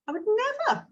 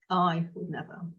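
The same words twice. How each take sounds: First: "I would never" lifted high on NEVER; high intonation. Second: "I would never" dropped low and a little softer; low, soft intonation. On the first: Coach demoing self-questioning prompt, said high. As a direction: float it up high, a different tune. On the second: Coach demoing self-questioning prompt, said low and soft. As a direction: sink it down low and quiet. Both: Shown as a demonstration. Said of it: "in a different intonation of voice".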